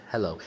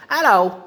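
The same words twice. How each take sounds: First: Said in the usual way. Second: "Hello." much higher and louder in a mock Australian parrot squawk; Australian-style parrot hello. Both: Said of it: "she says hello like a, like an Australian would say".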